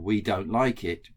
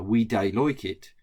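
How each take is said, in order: First: Said in the usual way. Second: Light Black Country accent on "we dey like it"; Wolverhampton accent. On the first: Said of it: "would mean". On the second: Shown as a demonstration. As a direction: say "dey" for don't, Wolverhampton style. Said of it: "in a Wolverhampton, uh, or Wolverhampton or Black Country accent".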